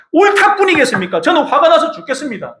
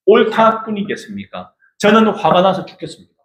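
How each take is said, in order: First: High-pitched indignant retort; angry Jonah. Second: Said in the usual way. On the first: Acted. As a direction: fire back at God, pitched way up. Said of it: "요나가 대답하였다". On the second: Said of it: "이게 우리 마음".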